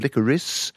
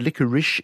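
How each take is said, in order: First: The word ends with an s sound. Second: The word ends with an sh sound. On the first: "second choice, even though historically it's preferred" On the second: "the one which is recommended by the dictionaries"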